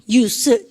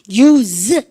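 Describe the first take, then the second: First: It ends in a soft, weak s sound. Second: It ends in a strong, buzzing z sound. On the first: It is the noun meaning use. "스 발음을 이렇게 싹 약하게" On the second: It is the verb meaning to use. "동사가 힘이 세서 use 이렇게 발음하고요"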